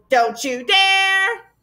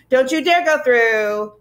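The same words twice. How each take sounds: First: Much higher, very slow shriek; frenzied shriek. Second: Slow, louder warning; frenzied shout. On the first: Gaboons in a frenzy at the arch, a very slow high shriek. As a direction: stretch it into a high frantic wail. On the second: Gaboons shrieking at the travellers at the arch, slow and loud. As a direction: hammer each word as a threat. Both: Acted. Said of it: "the Gaboons were in a frenzy".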